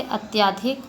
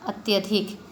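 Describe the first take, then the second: First: Long aa in अत्याधिक; common misspoken form. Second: Short a after ty in अत्यधिक; correct vowel. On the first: Teacher showing children a vowel error, common misspoken form. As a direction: say अत्याधिक with aa after the ty. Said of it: "अत्याधिक बोला जाता है". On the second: Teacher correcting a vowel error, short-vowel अत्यधिक. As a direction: say अत्यधिक without lengthening the middle vowel. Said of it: "स्वर संबंधी अशुद्धियाँ कुछ होती हैं". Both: Shown as a demonstration.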